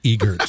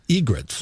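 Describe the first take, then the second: First: The r sound comes after the vowel following g. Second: The r sound comes right after the g. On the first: The speaker calls it wrong. "not egerts" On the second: The speaker calls it right. "they're actually egrets"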